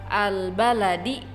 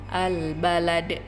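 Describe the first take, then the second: First: The word ends with a short vowel. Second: The word ends with a bare consonant.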